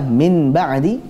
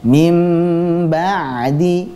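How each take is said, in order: First: The nasal before b is a clear n. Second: The nasal before b is said as m. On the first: The speaker calls it wrong. "ketika seseorang menjelaskan huruf nun sukunnya" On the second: The speaker calls it right. "Contoh bacaan yang benar adalah mim ba'di"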